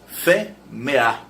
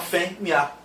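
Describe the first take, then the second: First: The second vowel is E, three syllables. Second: The second vowel is an I glide, two syllables. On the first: "se você falar o E como E, ela tem três sílabas" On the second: "esse E é rebaixado a semivogal I"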